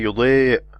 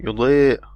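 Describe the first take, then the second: No difference in how they are said.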